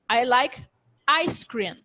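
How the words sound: The stress falls on ice cream. "if I emphasize on ice cream"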